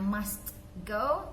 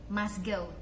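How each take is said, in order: First: The t sound is clearly pronounced. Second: The t sound is dropped. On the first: The speaker calls it wrong. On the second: The speaker calls it right. "tapi must go. T-nya dihilangkan"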